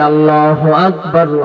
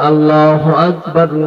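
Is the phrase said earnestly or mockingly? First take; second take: earnest; earnest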